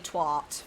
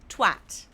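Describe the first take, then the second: First: The word is said with an American pronunciation. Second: The word is said with a harsh British pronunciation. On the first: The speaker calls it wrong. "Don't say twat, for God's sake. Twat is not a thing, Americans" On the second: The speaker calls it right. "if you're going to say it. Twat. It's a harsh word"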